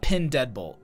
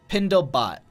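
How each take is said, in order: First: The middle of the name sounds like 'dead'. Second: The middle of the name sounds like 'dle'. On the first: The speaker calls it wrong. "It's not Pin Deadbolt" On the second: The speaker calls it right. "it's Pindle Bot"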